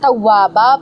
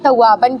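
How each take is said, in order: First: The word ends with a long a sound. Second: The word ends with an n sound. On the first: The reader stops at this word. "एक जबर के साथ अलिफ पढ़ेंगे" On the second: The reader continues without pausing. "तव्वाबन की जगह"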